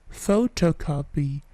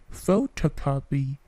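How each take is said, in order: The two takes are said the same way.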